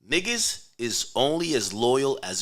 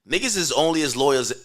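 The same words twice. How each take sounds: First: The phrase is said slowly and deliberately. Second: The phrase is said at a normal speed.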